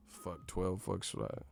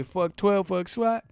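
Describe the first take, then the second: First: Low, soft mocking repeat; unimpressed repeat. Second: High, loud mock bravado; trying too hard. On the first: Repeating a wannabe's line in disbelief, low and quiet. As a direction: say it back low and under your breath. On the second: Mocking a store worker acting hard, high loud imitation. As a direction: shout it high like a wannabe tough guy. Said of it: "just be trying too hard".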